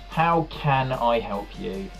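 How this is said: The stress falls on the word can. The speaker has given up on helping. "you put the emphasis on can"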